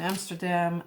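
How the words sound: The city name has an English pronunciation. "I'm gonna pronounce the city in English"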